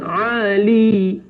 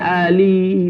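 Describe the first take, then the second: First: It begins with a tight throat consonant. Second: It begins with a plain open vowel. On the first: The speaker calls it right. "pakai ain" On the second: The speaker calls it wrong. "bukan pakai alif"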